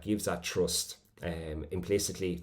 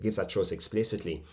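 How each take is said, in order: First: Said in the usual way. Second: Mild corrective stress on "explicitly". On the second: Real, not acted. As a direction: lean lightly on "explicitly" as the fixed word. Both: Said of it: "or sorry".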